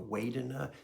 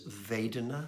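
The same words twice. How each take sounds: First: The word begins with a W sound. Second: The word begins with a V sound. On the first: "with a W sound" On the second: "with a V"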